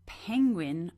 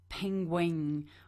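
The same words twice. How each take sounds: First: The word has its usual pronunciation. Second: The word's sounds are altered from the usual. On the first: The speaker calls it right. "saying penguin" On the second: The speaker calls it wrong. "more like penguin"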